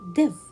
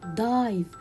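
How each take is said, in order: First: The vowel is a short 'ih' sound. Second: The vowel is a long 'eye' sound. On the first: The speaker calls it wrong. "I cannot say div" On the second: The speaker calls it right. "I should read it dive"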